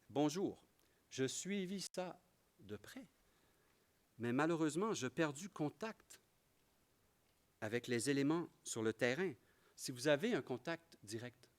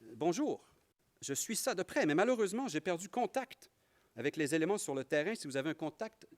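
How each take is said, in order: First: It is read at a slow pace. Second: It is read at a fast pace.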